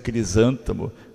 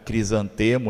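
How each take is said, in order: First: The stress is on the second syllable. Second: The stress is on the third syllable. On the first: The speaker calls it right. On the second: The speaker calls it wrong.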